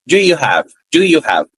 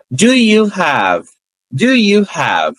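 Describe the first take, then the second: First: Linked in one breath; connected, one sound. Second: Very slow, each word apart; slow and clear. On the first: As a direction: run it together naturally. (junto, num som único) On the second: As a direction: spell it out slowly for learners. (bem devagar, palavra por palavra) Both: Shown as a demonstration. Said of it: "eu não falo pausadamente".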